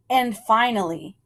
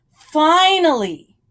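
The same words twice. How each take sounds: First: Said in the usual way. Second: "finally" drawn out, higher and louder, falling at the end; emphatic finally. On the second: A narrator's reading. Storyteller building to the big discovery, emphatic "finally". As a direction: lean hard into "finally", slowing it down.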